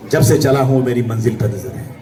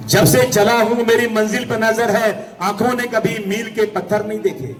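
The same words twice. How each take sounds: First: Low-pitched first reading of the verse; low verse opening. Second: Declaimed couplet. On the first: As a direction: begin the couplet low and measured. First take of verse line. (धीमे सुर में शेर की शुरुआत) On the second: Verse repeated as raised declamation. (ऊंचे सुर में शेर पढ़ते हुए) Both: Real, not acted.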